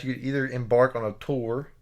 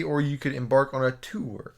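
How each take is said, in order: First: "tour" rhymes with door; tour as tor. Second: "tour" rhymes with poor, oo vowel; tour as too-er. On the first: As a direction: say "tour" with an or vowel. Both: Shown as a demonstration. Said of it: "depending on who you ask".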